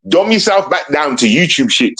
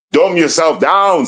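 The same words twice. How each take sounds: First: Said in the usual way. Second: Said slower and deliberate, each word spaced; slow it right down so it sinks in. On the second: Shown as a demonstration. Host slowing down his own rant for viewers, deliberately slow. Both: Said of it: "Slow down".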